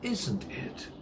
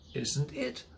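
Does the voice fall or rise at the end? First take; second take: fall; rise. First: The pitch falls at the end of the tag. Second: The pitch rises at the end of the tag. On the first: The speaker is sure of the answer. "The voice goes down" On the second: The speaker is unsure and wants confirmation. "The voice goes up because I'm not sure of the answer"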